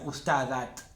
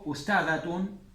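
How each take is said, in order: First: The word ends in a bare t sound. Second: The word ends in a full tun syllable. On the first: The speaker calls it wrong. "No digan ustadat" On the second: The speaker calls it right. "O ustadatun y leen todo esto"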